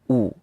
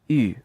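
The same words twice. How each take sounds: First: The vowel is a plain back rounded oo. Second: The vowel is a front rounded French-style u. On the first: The speaker calls it wrong. "not U" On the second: The speaker calls it right. "the U sound is like the U in French. It's U"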